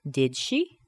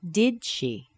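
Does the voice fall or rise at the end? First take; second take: rise; fall. First: The voice rises at the end. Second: The voice falls at the end. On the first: "So here's the rising intonation with did" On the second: "And now with falling intonation"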